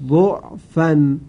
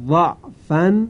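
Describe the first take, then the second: First: ضعفن said slowly with u vowel; ضعفن with damma, drawn out. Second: ضعفن said slowly with open a; ضعفن with fatha, drawn out. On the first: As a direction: recite ضعفن as du'fan. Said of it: "وجه دوم". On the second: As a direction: recite ضعفن as da'fan. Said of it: "وجه اول". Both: Shown as a demonstration.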